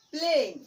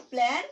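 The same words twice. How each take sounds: First: প্লেন with a long "ay", as in "plane"; loud falling প্লেন with "ay"; long vowel. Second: প্ল্যান with a short a, as in "plan"; short vowel. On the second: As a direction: say প্ল্যান with an open "a". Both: Shown as a demonstration. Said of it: "vowel ই যোগ করি".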